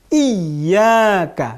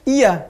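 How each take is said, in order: First: The y sound is doubled and held. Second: The y sound is short and single. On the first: The speaker calls it right. "ada ya bertasydid" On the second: The speaker calls it wrong. "bukan iya"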